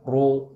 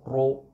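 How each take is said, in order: First: The ra is said with lips pushed forward. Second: The ra is said with lips pushed forward.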